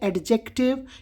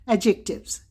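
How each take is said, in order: First: The d sound is clearly pronounced. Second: The d sound is left silent. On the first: The speaker calls it wrong. "बहुत सारे बच्चे mistake करते हैं" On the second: The speaker calls it right. "The better pronunciation is एडजेक्टिव्स"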